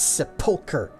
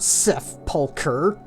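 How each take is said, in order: First: The middle is said without any h sound. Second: The middle is said with an h-like sound. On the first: The speaker calls it right. "I'm saying it right" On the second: The speaker calls it wrong. "There is no H there. It's not sepulcher"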